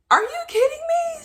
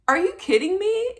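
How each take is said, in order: First: Very high, incredulous squeal; escalated disbelief. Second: High, rising disbelief; stunned question with a lift at the end; disbelieving question. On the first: Patient questions her doctor again, very high incredulous disbelief. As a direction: pitch leaps up in shocked disbelief. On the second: Patient to her doctor on pregnancy news, high disbelief. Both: Retold or imitated.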